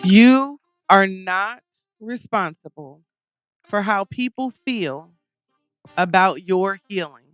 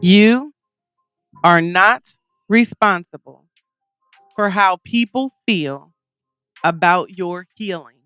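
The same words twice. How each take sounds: First: It is said at normal volume. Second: It is said louder.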